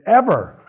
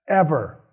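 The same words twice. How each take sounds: First: EVER pushed higher and louder; stressed ever. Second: Said in the usual way. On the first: Shown as a demonstration. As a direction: hit ever hard the second time. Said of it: "repeats ever louder". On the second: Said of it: "repeats ever for emphasis".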